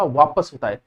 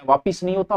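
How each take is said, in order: First: वापस with short schwa, falling; the correct वापस; correct form. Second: वापिस with an i in the second syllable, rejected; the common mistake वापिस; wrong form. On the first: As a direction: settle on वापस. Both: Shown as a demonstration.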